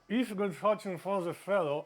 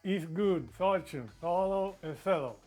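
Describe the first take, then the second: First: The phrase is said at a normal pace. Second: The phrase is said more slowly.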